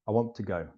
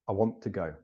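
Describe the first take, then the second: First: The words run together and the T nearly vanishes. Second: The words run together and the T nearly vanishes.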